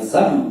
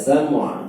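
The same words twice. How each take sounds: First: The final ain consonant is left out. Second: The final ain consonant is clearly pronounced. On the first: The speaker calls it wrong. "jangan sam. ... itu ainnya tidak terbaca" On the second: The speaker calls it right. "Ainnya dibaca sam'"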